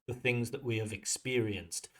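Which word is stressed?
experienced. The stress falls on the word experienced. The speaker calls it right. "That stress should be on experience, not on the have"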